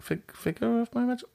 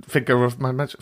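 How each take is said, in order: First: «figure of my magic» высоко и тихо, наигранно запинаясь на «fig-»; сбивчиво, выше и тише, как будто теряя слова; mock fumbling. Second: Said in the usual way. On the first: Shown as a demonstration. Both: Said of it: "I'm not very good with the words".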